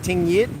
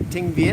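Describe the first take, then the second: First: The second word begins with a Y sound. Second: The second word begins with a V sound.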